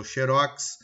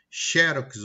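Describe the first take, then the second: First: "xerox" stressed on ROX; "xerox" with the beat at the end; last-syllable stress. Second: "xerox" stressed on XE; "xerox" with open e, beat up front; first-syllable stress. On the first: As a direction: say "xerox" as "xe-RÓX". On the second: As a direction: say "xerox" as "XÉ-rox". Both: Shown as a demonstration. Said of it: "Essas aí eles têm variação".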